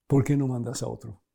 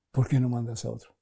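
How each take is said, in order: First: A touch of pleading, falling at the end; lightly voiced Moses begging off. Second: Said in the usual way. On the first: Preacher voicing Moisés begging God, a hint of pleading. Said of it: "Moisés dice".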